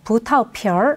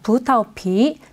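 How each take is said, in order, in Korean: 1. 마지막 음절은 r 소리가 섞여서 끝납니다. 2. 마지막 음절은 r 소리가 섞이지 않게 끝납니다.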